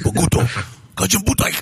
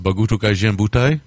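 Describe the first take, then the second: First: It is said in a gruff, scowling put-on voice. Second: It is said in a plain, tentative natural voice. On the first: "I could say it like Mofune" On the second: "let me see if I can do this"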